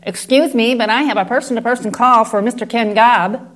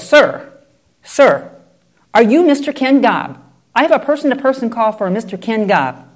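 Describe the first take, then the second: First: Courteous operator's request; lightly voiced patient operator; polite operator. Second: Louder, higher, pressing impatiently; mock impatient operator repeating herself. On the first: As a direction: ask for him politely, like a phone operator. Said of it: "The operator on the other end says". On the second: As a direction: insist with growing impatience. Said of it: "the operator's getting impatient".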